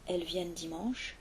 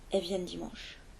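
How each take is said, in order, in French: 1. Le L dans 'elles' est bien prononcé. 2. Le L dans 'elles' est omis. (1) "Au lieu d'entendre elles" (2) "on entend elles"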